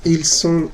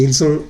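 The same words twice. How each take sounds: First: Ils sont with one clean unvoiced S. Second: Ils ont with a voiced Z link. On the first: Teacher correcting a student, crisp single S. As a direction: hiss the S in Ils sont, no buzz. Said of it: "como si fuera una sola S". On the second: Teacher correcting a student, buzzing Z. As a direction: let the S buzz like a Z in ils ont. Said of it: "ils ont la S como si fuera Z". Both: Shown as a demonstration.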